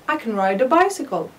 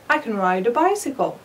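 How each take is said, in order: First: Can is weak and linked to neighbouring words. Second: The same.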